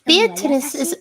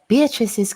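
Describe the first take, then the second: First: The character voice is pitched higher. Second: The character voice is pitched lower. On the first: The speaker calls it wrong. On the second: The speaker calls it right.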